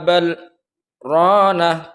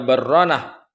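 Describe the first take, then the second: First: A short break separates the two words. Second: The two words merge with no break. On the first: The speaker calls it right. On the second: The speaker calls it wrong.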